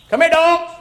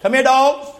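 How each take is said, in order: First: Much higher call to the dogs. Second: Higher call to the dogs. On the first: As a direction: summon the dogs to the body. Calling dogs to Jezebel. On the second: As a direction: summon the dogs to the feast. Holy Spirit calls the dogs. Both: Retold or imitated.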